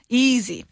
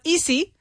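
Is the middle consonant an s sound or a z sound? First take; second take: z sound; s sound. First: The middle consonant is a buzzing z sound. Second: The middle consonant is a hissing s sound. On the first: The speaker calls it right. "Easy with a z sound" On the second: The speaker calls it wrong. "It's not easy"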